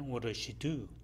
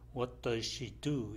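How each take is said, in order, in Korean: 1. 빠르게 발음하고, t와 z 소리를 빼요. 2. 모든 단어를 천천히, 또렷하게 발음해요. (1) "빨리 할 때는" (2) "천천히 할 경우에는"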